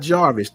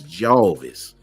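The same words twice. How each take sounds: First: The name is said with an R sound. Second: The name is said without an R sound. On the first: The speaker calls it wrong. "not Jarvis" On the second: The speaker calls it right. "You got to take the R out for Jarvis. It's Jarvis"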